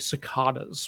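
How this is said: The word is said with a British pronunciation. The speaker calls it wrong. "I think I heard some British person say cicadas one time, but that's not it"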